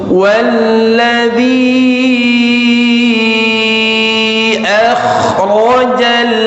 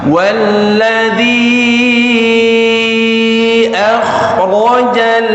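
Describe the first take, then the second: Both takes have the same delivery.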